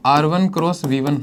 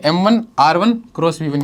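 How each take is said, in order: First: Slow, each term set apart for notes; teacher spells the formula out slowly so students recall; slow dictation. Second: Said in the usual way. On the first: Shown as a demonstration. Teacher to class, slow dictation for recall. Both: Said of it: "याद करो".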